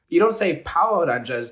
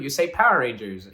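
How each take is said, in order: First: It is said with Japanese-style katakana pronunciation. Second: It is said with ordinary English pronunciation. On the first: The speaker calls it wrong. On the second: The speaker calls it right.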